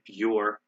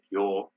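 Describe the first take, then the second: First: The R sound is clearly pronounced. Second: The R is dropped and the vowel lengthened. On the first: "We say pure" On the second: "They say pure"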